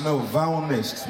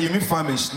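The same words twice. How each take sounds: First: Slow, famished said "vaunest", ending swallowed; insisting on the wrong word; drawn-out wrong famished; mispronounced famished. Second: Famished said "famist", clearly finished; correcting her gently; plain correction of famished; correct pronunciation. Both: Retold or imitated. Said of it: "He said".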